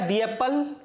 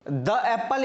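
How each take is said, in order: First: The word 'the' has a long 'ee' vowel. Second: The word 'the' has a short 'uh' vowel. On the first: The speaker calls it right. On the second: The speaker calls it wrong.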